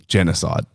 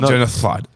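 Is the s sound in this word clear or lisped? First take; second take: clear; lisped. First: The s sound is pronounced clearly. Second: The s sound is pronounced with a lisp. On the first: The speaker calls it right. "you should be able to say genocide" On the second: The speaker calls it wrong. "Not genocide"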